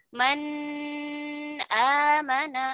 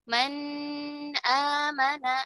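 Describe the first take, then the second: Both takes have the same delivery.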